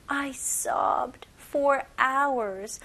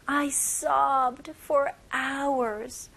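First: Whispered slowly, no voice. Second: Said in the usual way. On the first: Shown as a demonstration. Teacher repeats the example sentence for her class in a whisper. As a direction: breathe the line out as a slow whisper. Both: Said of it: "첫 번째 문장 다시 한번 볼게요".

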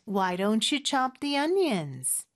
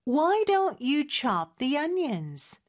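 First: "Why don't you chop the onions?" in a more connected flow; linked repeat. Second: "Why don't you chop the onions?" slowly, word by word; slow, deliberate practice take of "don't you chop"; careful slow repeat. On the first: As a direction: join "don't you" as "don-chu". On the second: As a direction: draw out each word, "don't you" unhurried. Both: Shown as a demonstration.

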